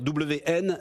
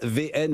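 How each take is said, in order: First: The first letter is said as double-v. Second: The first letter is said as v.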